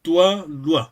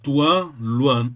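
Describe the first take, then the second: First: Teacher showing how "toi, loi" should sound. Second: "toi, loi" said with a clear oi glide, not tu, lu; teacher showing the corrected vowels in "toi, loi"; toi loi sounds. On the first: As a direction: say "toi, loi" with a clear oi glide. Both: Shown as a demonstration. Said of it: "it should sound".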